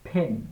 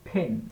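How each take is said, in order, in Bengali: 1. প্রথম ব্যঞ্জনে বাতাসের একটা ফুঁ আছে। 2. প্রথম ব্যঞ্জনে বাতাসের একটা ফুঁ আছে।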